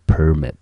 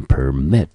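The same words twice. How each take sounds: First: "permit" said as PER-mit, falling after the first syllable; stress on first syllable. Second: "permit" said as per-MIT, punching the last syllable; stress on second syllable. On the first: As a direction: put the weight on PER in "permit". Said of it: "要特别注意它的重音节在第一个音节". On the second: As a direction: put the weight on MIT in "permit". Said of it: "重音节在mit这个音节". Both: Shown as a demonstration.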